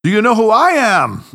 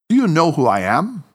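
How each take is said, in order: First: "Do you know who I am?" louder and higher, falling on I; about to burst out laughing, teasing; mocking echo. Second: "Do you know who I am?" rising on you, measured and even; a level, controlled challenge; understated professional demand; composed professional question. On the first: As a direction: parrot him back in playful glee. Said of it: "asked Tanaka as he burst into uncontrollable laughter". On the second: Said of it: "his most neutral professional tone". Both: A narrator's reading.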